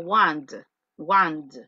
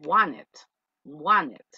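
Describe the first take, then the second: First: "want" said as a single clipped word with a hard final d sound; pronouncing want. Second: "want it" run together as "wane-t", the t nearly dropped; American pronunciation. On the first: Teacher demonstrating how some people pronounce "want". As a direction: say "want" short, ending on a d. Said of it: "algunas personas dicen". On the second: Teacher demonstrating the American English "want it". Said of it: "como el inglés americano, dicen". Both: Shown as a demonstration.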